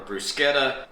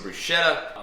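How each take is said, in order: First: The word is said in an Italian-style way. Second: The word is said in a plain Southern American way. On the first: This is the way the word is supposed to be said. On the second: This is the speaker's everyday way of saying it.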